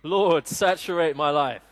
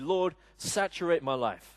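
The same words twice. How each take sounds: First: It is said with more enthusiasm. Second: It is said with little enthusiasm. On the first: The speaker calls it right. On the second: The speaker calls it wrong.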